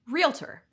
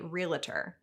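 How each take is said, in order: First: No extra sound is added in the middle. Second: An extra sound is added in the middle. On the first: The speaker calls it right. "only one way to properly pronounce the term realtor" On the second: The speaker calls it wrong. "might mind if you say realtor"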